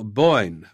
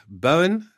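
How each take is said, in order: First: "Bowen" as one syllable, rhyming with "coin"; tentative "Boyn" for "Bowen"; trying a pronunciation. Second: "Bowen" in two syllables, BOH-in, rising high; unsure "Bowen?" with both syllables sounded; questioning pronunciation. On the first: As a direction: say "Bowen" like "Boyn", falling at the end. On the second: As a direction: try "Bowen" as "Bo-win", like a question. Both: Shown as a demonstration. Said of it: "How do you pronounce it".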